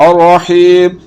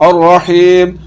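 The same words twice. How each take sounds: No difference in how they are said.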